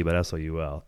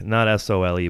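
First: Spelling out S O U L letter by letter, a little lower; spelled S O U L. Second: Spelling out S O L E letter by letter; spelled S O L E. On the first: Host spelling soul to the cohost, letter by letter. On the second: Host spelling sole to the cohost, letter by letter. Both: Shown as a demonstration.

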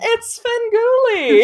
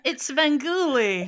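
First: High, loud, slow dramatic announcer call. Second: Slow, drawn-out announcer call. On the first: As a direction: belt the name like a showman's intro. Echoing the name dramatically. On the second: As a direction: boom the name like a host intro. Naming the beloved horror host. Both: Pretend.

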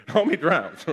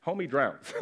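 First: Laughing repeat. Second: Said in the usual way. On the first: Shown as a demonstration.

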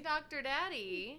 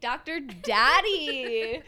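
First: Drawn-out tease. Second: Slow, loud drawn-out tease. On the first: Drawn-out nickname joke. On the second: Echoes nickname louder, slower. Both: Pretend.

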